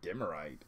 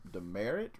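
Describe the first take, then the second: First: It sounds different from the ordinary word demerit. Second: It sounds exactly like the ordinary word demerit. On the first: "I like Demerite" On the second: "That's how you say it? Like, the old school, like, you get a mark on your name, you get a demerit?"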